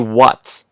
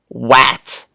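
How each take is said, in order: First: The vowel is not a short A sound. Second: The vowel is a short A sound. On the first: The speaker calls it right. "We always say what" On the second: The speaker calls it wrong. "if we try to tap this out with a short A sound, it's going to sound goofy"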